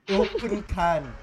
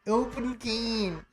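First: Slow, drawn-out non-American accent; heavy put-on accent. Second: Slow, higher-pitched American accent. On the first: Showing friends a heavy accent before the American one, put-on accent. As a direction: stretch it out in a foreign accent. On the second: Showing friends the contrast, said in an American accent. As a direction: stretch it out in American. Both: Shown as a demonstration. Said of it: "if I say it in an American accent".

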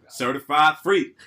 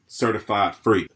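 First: The same line, done as a guy; male version of her. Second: Said in the usual way. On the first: Retold or imitated. A friend repeating her line as a guy, laughing. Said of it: "I said it just like her, but in the male version". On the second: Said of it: "I said it just like her".

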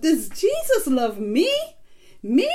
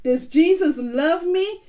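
First: "Does Jesus love me? Me?" with "me" rising as a question; really wanting to know, lift "me" and ask "Me?" on its own; interested question, repeat "Me?" with a sharp upward lift. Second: "Does Jesus love me?" as a question, pitch rising on "me"; higher questioning tune, lifting "Jesus love me" to a rise; asking a question. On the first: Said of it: "put some real interest in there and point to yourself". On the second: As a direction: ask "Does Jesus love me?" with a clear upward ending. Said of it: "say it like you're asking a question". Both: Shown as a demonstration.

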